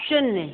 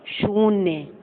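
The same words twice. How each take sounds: First: "शून्य" as shunnya, short u; brief u in "शून्य"; wrong short vowel. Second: "शून्य" as shoonya, long falling ū; drawn-out oo in "शून्य". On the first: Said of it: "ये अशुद्ध लिखे हैं". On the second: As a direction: hold the first vowel in "शून्य". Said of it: "इनको शुद्ध". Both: Shown as a demonstration.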